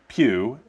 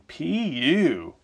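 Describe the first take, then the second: First: It is said as a single short syllable. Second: It is stretched out into two syllables. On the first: "it's pronounced P-U" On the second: "it's often stretched into two syllables for emphasis"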